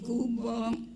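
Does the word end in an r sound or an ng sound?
ng. The word ends with an o plus ng. This is the Kedah dialect form.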